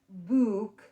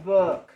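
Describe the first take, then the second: First: The vowel is a long oo sound. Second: The vowel is a short uh sound. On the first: The speaker calls it wrong. "it's not book, like food" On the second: The speaker calls it right. "It's book, like took"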